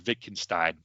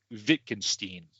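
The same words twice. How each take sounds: First: Wittgenstein with a final "stine"; alternative pronunciation. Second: Wittgenstein with a final "steen"; unsure pronunciation. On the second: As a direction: say Wittgenstein as "VIT-ken-steen". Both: Shown as a demonstration. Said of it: "that I'm gonna butcher".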